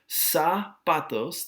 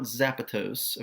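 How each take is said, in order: First: The word begins with a hissing s sound. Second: The word begins with a buzzing z sound. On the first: The speaker calls it right. "the Z makes an S sound" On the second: The speaker calls it wrong. "Be careful, this is not zapatos"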